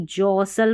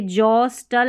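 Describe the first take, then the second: First: जॉसल with a silent T; correct pronunciation. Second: जॉस्टल with the T sounded; wrong pronunciation. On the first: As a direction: say जॉसल, no T after S. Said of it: "जॉसल पढ़ना है". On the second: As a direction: say जॉस्टल with a clear T after S. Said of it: "जॉस्टल नहीं". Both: Shown as a demonstration.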